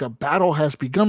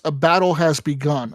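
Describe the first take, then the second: First: Baffled question with a rising end; mock-confused king rising on begun; incredulous echo. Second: Said in the usual way. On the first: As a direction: repeat the message in disbelief. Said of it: "I'm like". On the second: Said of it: "And it says".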